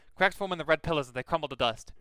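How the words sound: It is read in a put-on Boston accent. The speaker calls it right.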